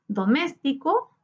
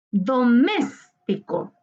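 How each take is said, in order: First: Said in the usual way. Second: Doméstico slowly, with MÉS held long; tonic syllable stressed. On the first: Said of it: "identificar la sílaba tónica". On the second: Shown as a demonstration. Teacher showing students the tonic syllable, MÉS drawn out in Doméstico. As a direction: stretch the MÉS in Doméstico, then drop off. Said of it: "Su sílaba tónica se encuentra en mes".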